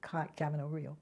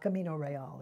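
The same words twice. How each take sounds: First: The name is said with an American pronunciation. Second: The name is said with a non-American pronunciation. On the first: The speaker calls it right. "It's the American Camino Real" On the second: The speaker calls it wrong. "It's not Camino Real"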